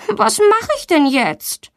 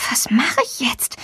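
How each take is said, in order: First: High, slow helpless question; worried. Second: Soft whisper to herself; whispered thought. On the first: Stuck girl wonders aloud what to do, high and slow. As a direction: ask it slowly, much higher, at a loss. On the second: Girl stuck on the door thinks to herself, whispered. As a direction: breathe the question, voiceless. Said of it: "denkt sie". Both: A narrator's reading.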